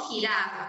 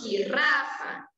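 First: Jirafa with a single soft tapped r. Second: Jirrafa with a strong trilled rr; wrong rolled r. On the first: Teacher models the soft r in jirafa for children. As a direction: tap the r lightly in jirafa. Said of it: "con un sonido más suave". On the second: Teacher shows children the wrong strong r in jirrafa. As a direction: roll the rr hard in jirrafa. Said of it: "no decimos jirrafa". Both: Shown as a demonstration.

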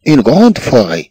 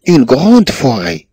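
First: Said in the usual way. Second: Slow dictation. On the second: Shown as a demonstration. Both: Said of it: "une grande forêt (repeated demo)".

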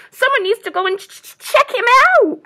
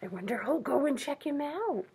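First: Fast, high, loud stammer on CHECK; chattering squirrel. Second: Soft, higher musing; hushed wondering. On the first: A narrator's reading. Squirrel urges animals to investigate stranger, chattering. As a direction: chatter urgently, tripping on the first sound. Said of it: "chattered the squirrel". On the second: Real, not acted. Reader wonders with children who will go, hushed. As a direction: wonder aloud quietly after a gasp.

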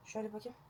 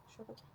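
First: Said in the usual way. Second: "Şöyle bakayım" repeated much softer, almost breath; softer murmured repeat while checking; near-whispered echo. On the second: Real, not acted. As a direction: echo it under your breath.

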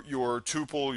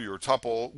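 First: "tuple" said TOO-pull; "tuple" rhyming with pupil; long-U tuple. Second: "tuple" said TUP-pull; "tuple" rhyming with supple; short-U tuple. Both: Shown as a demonstration. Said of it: "I'll probably say it both ways".

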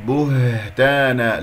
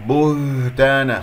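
First: بهتانا slow, short u then a released h; correct breathy ha. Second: بهتانا with the u pulled into the h; faulty, rounded buuhtana in بهتانا; wrong dragged vowel. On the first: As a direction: recite بهتانا with a clear airy h. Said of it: "لا تسحب ضمة الباء". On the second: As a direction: smear the oo of بهتانا across the h. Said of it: "خطأ". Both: Shown as a demonstration.

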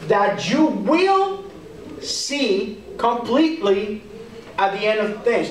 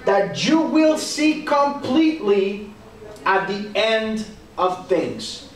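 First: WILL drawn out and lifted, slow pauses between phrases; stress on WILL. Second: Said in the usual way. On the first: Shown as a demonstration. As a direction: slowly hammer the word will, then pause. Repeats verse to point out future tense.

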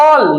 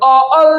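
First: "অল" said whole, in one syllable. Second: "অ-, অল" broken into two pieces; wrongly split syllable. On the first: Teacher showing students it has only one syllable, said whole. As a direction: say "অল" as a single unbroken beat. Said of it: "একটাই syllable". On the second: Teacher showing students how it cannot be divided, split in two. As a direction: split "অল" after the vowel, as a wrong example. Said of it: "হয় না কিন্তু". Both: Shown as a demonstration.

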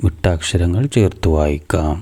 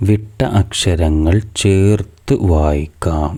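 First: Said in the usual way. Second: Slow, careful reading. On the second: Shown as a demonstration. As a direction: read the title slowly, word by word. (പതുക്കെ, ശ്രദ്ധിച്ച് വായിക്കുന്നു) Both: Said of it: "ഇനി മൂന്നാമത്തെ activity നോക്കൂ".

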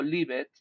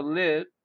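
First: "live it" with an added second syllable; mistaken two-syllable lived. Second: "lived" as one short syllable; correct pronunciation of lived. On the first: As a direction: sound out "live it" as two beats. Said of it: "no digo live it". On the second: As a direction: say "lived" in a single beat, short i. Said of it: "digo lived". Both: Shown as a demonstration.

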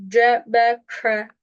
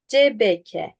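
First: "C B K" slow, with Arabic sounds; correct Arabic articulation. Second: "C B K" as Turkish ce-be-ke; wrong Turkish-style reading. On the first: Teacher contrasting readings, careful Arabic "C B K". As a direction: articulate "C B K" slowly, Arabic-style. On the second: Teacher contrasting readings, Turkish-sounding "C B K". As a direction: read "C B K" with light Turkish vowels. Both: Shown as a demonstration. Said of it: "çok farklı".

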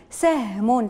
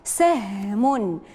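First: Said in the usual way. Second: Extremely slow, stretched; سهم said very slowly with the vowel held; drawn-out model word. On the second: Shown as a demonstration. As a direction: pull سهم out long. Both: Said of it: "انتقلوا الكلمة الأخيرة".

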